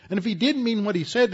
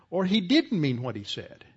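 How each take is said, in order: First: Higher, louder and faster on "didn't"; the echo thrown out with rising heat; emphatic repeat. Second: Said in the usual way. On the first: Acted. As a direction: fire the repeat back harder. Repeated with force.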